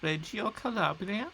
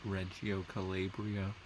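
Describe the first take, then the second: First: "Reggio Calabria" higher, rising as a question, with Italian vowels; attempted Italian pronunciation. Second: "Reggio Calabria" lower, with English ca-LAY-bria; anglicized pronunciation. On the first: Gamer reading town names off the map, attempted Italian pronunciation. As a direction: say "Reggio Calabria" with Ca-LAH-bria, unsure and lifted. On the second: Gamer doubting his first try, anglicized pronunciation. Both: Shown as a demonstration. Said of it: "I don't think I said that right".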